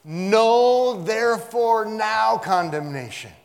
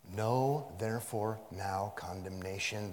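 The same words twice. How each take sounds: First: "Know" shouted high and held, every word slow and loud; emphatic. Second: Said in the usual way. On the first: Shown as a demonstration. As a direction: thunder it slowly, leaning on "Know". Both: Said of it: "what I meant by emphatic".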